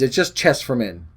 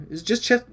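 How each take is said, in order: First: Said in the usual way. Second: "chest" asked with a high rising question tune; doubtful question. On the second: Real, not acted. Man doubting his measuring words, rising on "chest". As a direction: rise up on "chest" as if unsure.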